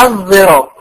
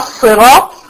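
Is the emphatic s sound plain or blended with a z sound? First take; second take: z-blended; plain. First: The emphatic s is blended with a z sound. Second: The emphatic s is a plain sad sound.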